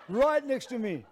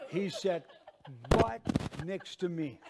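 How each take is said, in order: First: "Right next to me" loud and raised in pitch; incredulous, punched-up "Right next to me"; emphatic repeat. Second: "right" set off by a pause on each side; deadpan reveal, pausing around "right"; spaced-out punchline. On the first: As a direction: drive home "Right next to me" with force. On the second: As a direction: land "He sat... right... next to me" in separate pieces. First telling of the punchline. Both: Real, not acted.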